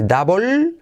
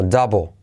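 First: "double" as "dabol", long L, rising high; mistaken full L. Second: "double" as "dabo", L almost gone; near-silent L. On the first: Teacher showing the mistake, "double" with a heavy L. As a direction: hang on the final L of "double". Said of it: "Doble no se dice double". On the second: Teacher correcting learners, "double" ending in O, "dabo". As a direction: drop the final L of "double". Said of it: "la L es casi insignificante". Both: Shown as a demonstration.

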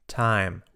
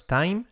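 First: Said in the usual way. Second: TIME mispronounced as the mistake, higher and rising; wrong pronunciation. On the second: Shown as a demonstration. Teacher showing learners what to avoid, wrong pronunciation. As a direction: say TIME the wrong way, lifted like a question. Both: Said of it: "No es time".

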